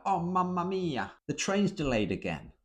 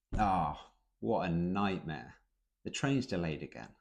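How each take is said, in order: First: High, theatrical Italian-style wail; over-the-top dramatic. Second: Understated complaint. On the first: Teacher mocking how Brits don't complain, overly dramatic. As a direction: ham up the despair like an opera. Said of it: "not dramatic". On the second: Teacher showing the British way to complain, understated. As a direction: shrug it off dryly. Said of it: "We understate it". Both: Shown as a demonstration.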